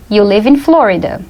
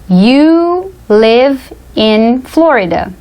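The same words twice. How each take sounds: First: Said in the usual way. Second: Very slow, word by word; slow model sentence. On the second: Shown as a demonstration. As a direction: dictate it with gaps between the words. Example dictated word by word.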